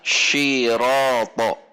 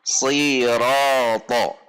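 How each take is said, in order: First: It begins with a hushing sh sound. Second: It begins with a heavy, emphatic s sound. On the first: The speaker calls it wrong. "atau bahkan shiroto, pakai shin" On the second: The speaker calls it right. "Seharusnya si, siroto"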